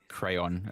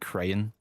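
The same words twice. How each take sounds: First: The word does not sound like 'crane'. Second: The word sounds like 'crane'. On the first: This is how the speaker says it. "I say crayon, as in crayon" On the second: This is how some other people say it. "people say like crayon, like crane"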